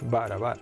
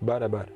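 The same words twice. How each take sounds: First: The vowels are said plainly and clearly. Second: The vowels are said deep in the throat.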